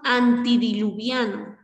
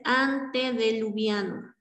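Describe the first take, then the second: First: The second vowel is an i sound. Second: The second vowel is an e sound. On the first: The speaker calls it wrong. "Tenemos antidiluviano" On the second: The speaker calls it right. "lo correcto es antediluviano"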